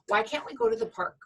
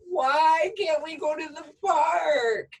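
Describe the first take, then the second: First: It is asked in a calm, neutral tone. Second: It is asked in a frustrated, upset tone.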